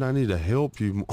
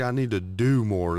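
First: "help" leaned on as the disputed word; stress on help. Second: "do" punched as the corrected word; stress on do. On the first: Retold or imitated. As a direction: quote it back, punching "help". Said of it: "Then why are you saying". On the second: Shown as a demonstration. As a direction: offer the better wording, hitting "do" hard. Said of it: "Why not say".

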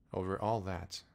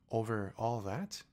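First: King affirming. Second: Slow, rising question of wonder; amazed question. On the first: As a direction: settle it with royal certainty. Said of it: "the king answered". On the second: Little prince marvelling at the king's realm, slow rising. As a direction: ask in awe, stretching it out. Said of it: "asked the little prince". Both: Acted.

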